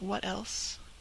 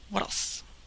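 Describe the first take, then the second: First: The two words are said as separate words. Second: The two words are run together as one word.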